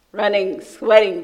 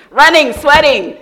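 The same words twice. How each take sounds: First: Said in the usual way. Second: Loud and high burst; excited. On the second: Real, not acted. Preacher recalls her rush, loud and high. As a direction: fling out the words.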